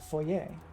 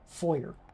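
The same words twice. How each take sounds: First: It is said in a non-American accent. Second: It is said in a general American accent.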